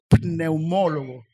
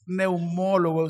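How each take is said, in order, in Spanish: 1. La palabra empieza con una p pronunciada. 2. La palabra empieza sin sonido de p. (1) "es pneumólogo" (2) "no es neumólogo"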